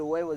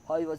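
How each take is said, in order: First: The word starts with a w-like glide. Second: The word starts with a breathy h sound. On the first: "nunca pudo decir huevos" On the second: "aspiraba la, la H, la aspiraba oivos"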